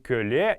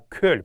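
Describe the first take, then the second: First: The word ends with an added vowel sound. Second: The word ends on a soft consonant. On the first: The speaker calls it wrong. "не кölе" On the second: The speaker calls it right. "а кölь, правильная а, орфоэпическая норма произношения"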